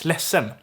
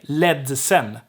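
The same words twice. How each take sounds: First: The D sound in the middle is dropped. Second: The D sound in the middle is pronounced. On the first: The speaker calls it right. "No, no, it's ledsen" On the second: The speaker calls it wrong. "I've never heard anyone ever say ledsen"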